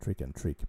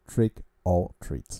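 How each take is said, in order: First: The last word sounds like 'trick' with a short vowel. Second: The last word sounds like 'treat' with a long vowel. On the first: The speaker calls it wrong. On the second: The speaker calls it right.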